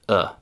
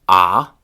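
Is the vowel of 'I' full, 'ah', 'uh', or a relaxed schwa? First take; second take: schwa; ah. First: It is said as a fully relaxed schwa. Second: It is said as a short open 'ah' vowel. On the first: "ending with the most reduced"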